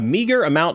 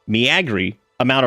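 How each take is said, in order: First: The word meager is pronounced in the usual way. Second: The word meager is pronounced in a distorted way.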